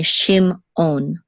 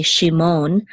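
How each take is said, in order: First: "shimon" split as shim, on; separated syllables. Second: "shimon" run together as shi-mon; run-together syllables. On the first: Teacher shows student the right way, "shimon" split shim-on. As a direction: break "shimon" after the M, then start on afresh. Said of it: "do that separation thing again". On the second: Teacher shows student the wrong way, syllables of "shimon" run together. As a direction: say "shimon" with the M gliding into the second syllable. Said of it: "we're not gonna say shimon". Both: Shown as a demonstration.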